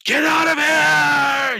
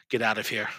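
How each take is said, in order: First: Very high, drawn-out full scream; frantic scream at the top of the voice. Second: Said in the usual way. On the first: Acted. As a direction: scream it and hold the last word. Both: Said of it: "He just starts screaming".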